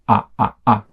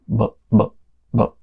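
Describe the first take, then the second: First: The vowel is said with full energy. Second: The vowel is said with very low energy. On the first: "This one is one hundred percent" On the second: "this one is low energy, so it's super low energy"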